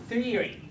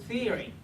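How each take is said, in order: The two takes are said the same way.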